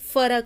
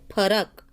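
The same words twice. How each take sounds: First: The word begins with an f sound. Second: The word begins with an aspirated p sound. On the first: This pronunciation shows influence from another language. The speaker calls it wrong. "हिंदीचा प्रभाव पडलेला आहे" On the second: This is the native Marathi pronunciation. The speaker calls it right. "मराठीमध्ये त्याचं खरं उच्चारण आहे"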